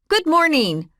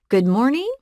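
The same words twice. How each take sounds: First: It sounds hard and sharp. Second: It sounds like a question.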